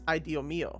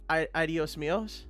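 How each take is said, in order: First: No s sound is pronounced at the end. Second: An s sound is pronounced at the end. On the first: The speaker calls it right. "You don't pronounce the s's at the end" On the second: The speaker calls it wrong. "that's not how you'd say that"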